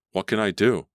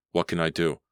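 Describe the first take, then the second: First: Higher, louder panicked cry; the fear breaks through. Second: Said in the usual way. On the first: A narrator's reading. Claudia chased by the dog, panicked louder cry.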